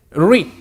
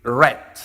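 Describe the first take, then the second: First: "Read" said as reed, long ee; "Read" with the vowel of "see", like reed; present-tense read. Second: "read." said as red, short e; "read." rhymes with bed, like the colour red; past-tense read. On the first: Teacher contrasts present "Read" for students, said as reed. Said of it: "cambia la pronunciación". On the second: Teacher shows students past "read." is said like red. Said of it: "El pasado de read es red". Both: Shown as a demonstration.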